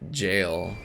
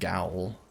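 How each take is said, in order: First: The word begins with a j sound, rhyming with 'mail'. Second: The word begins with a hard g, rhyming with 'owl'. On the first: The speaker calls it right. "Lepsis had to teach me how to say jail" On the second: The speaker calls it wrong. "I kept saying gowl"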